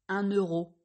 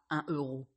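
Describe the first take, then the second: First: A linking N sound joins the two words. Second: No linking sound joins the two words. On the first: The speaker calls it right. "Vous dites" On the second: The speaker calls it wrong. "et pas"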